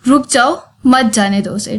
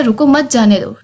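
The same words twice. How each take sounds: First: रुक जाओ set apart from मत जाने दो उसे by a pause; pause at comma. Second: रुको मत जाने दो run together as one line; no break after रुको; no comma pause. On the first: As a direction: stop after जाओ as at a comma. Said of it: "comma लगा दिए तो". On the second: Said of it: "comma हटा देते हैं तो ये एक ही line". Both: Shown as a demonstration.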